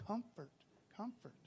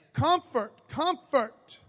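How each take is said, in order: First: Much softer, gentle repeat of comfort; soft, tender second take. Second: Loud, high, ringing call of comfort; booming declaration of comfort; loud proclamation. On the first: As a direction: say comfort softly, almost to yourself. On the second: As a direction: proclaim each comfort with force. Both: Shown as a demonstration. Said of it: "Let me go ahead and say that twice".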